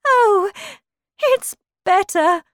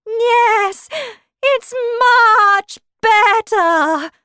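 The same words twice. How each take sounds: First: High, loud exclamation from the Queen; crying out. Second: High, loud, slow, starting to bleat; strange changing voice. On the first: Queen answers Alice about her finger, crying out. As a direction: call it out high and bright-eyed. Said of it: "cried the Queen". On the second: Queen's voice turns strange as she answers, slowly bleating. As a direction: stretch the words as if turning into a sheep. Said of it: "her voice sounded strange". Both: Acted.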